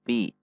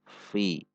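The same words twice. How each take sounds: First: The f is made with both lips together. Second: The f is made with teeth on lip. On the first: The speaker calls it wrong. "Tidak fi" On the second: The speaker calls it right. "namun fi. Jadi bibir atas tidak ikut"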